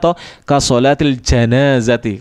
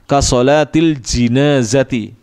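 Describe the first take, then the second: First: The funeral word begins with the syllable 'ja'. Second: The funeral word begins with the syllable 'ji'. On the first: This is how Indonesians usually hear it. "Kalau orang Indonesia sering dengarnya ja saja" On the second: This is how scholars often read it in the books. "di kasrah jimnya"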